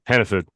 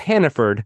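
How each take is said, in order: First: The name is said in a Maine accent. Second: The name is said in a standard accent. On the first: This is how locals say it. "If you're from Maine, you pronounce it like that" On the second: This is how the name is written. "It's it's Hannaford"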